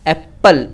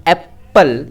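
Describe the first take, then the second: Both takes have the same delivery.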